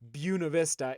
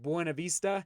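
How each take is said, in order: First: The name is said the local residents' way. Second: The name is said the way outsiders say it. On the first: The speaker grew up in the town. "I pronounce it Buena Vista" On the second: The speaker is not from the town. "instead of Buena Vista"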